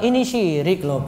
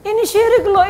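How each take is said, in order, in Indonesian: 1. Diucapkan dengan lemah, tanpa nada yang tegas. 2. Diucapkan dengan tegas, dengan nada sedikit lebih tinggi. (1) "Ini kepiye? Gimana mau ini dengar?" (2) "Nadanya agak tinggi dikit gitu"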